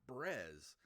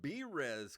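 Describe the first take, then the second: First: It is said as one syllable, 'brez'. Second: It is said as two syllables, 'bee-rez'. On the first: The speaker calls it wrong. "not Brez" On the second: The speaker calls it right. "It's B Res Coffee Co"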